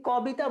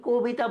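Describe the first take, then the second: First: কবিতা said "kaw-bita"; open first vowel. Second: কবিতা said "ko-bita"; closed first vowel. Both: Shown as a demonstration. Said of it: "কবিতা বলো নাকি কবিতা বলো".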